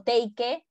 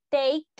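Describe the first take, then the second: First: "take" with an extra final syllable, TEY-ke; wrong pronunciation. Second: "take" as one crisp syllable, TEYK; correct pronunciation. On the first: Teacher shows students what not to say, "take" mispronounced as TEY-ke. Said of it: "no digo take". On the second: Teacher corrects students, "take" pronounced properly as TEYK. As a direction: say "take" louder, with a silent final e. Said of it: "es take". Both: Shown as a demonstration.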